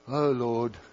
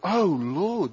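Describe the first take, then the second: First: It sounds bored and routine. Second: It sounds passionate and zealous.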